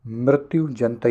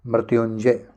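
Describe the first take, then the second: First: मृत्युजंतय ending in jan-tay; wrong -jantay ending. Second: Said in the usual way. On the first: Shown as a demonstration. Teacher quoting the mistake, -jantay ending on मृत्युजंतय. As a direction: say मृत्युजंतय with a t in the last part. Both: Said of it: "ये नहीं".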